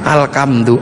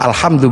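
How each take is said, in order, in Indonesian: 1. Konsonan di tengah itu bunyi k yang keras. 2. Konsonan di tengah itu bunyi h yang berdesah. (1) "maka alhamdu menjadi alkam" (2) "karena punyanya ko, gak punya huruf ha"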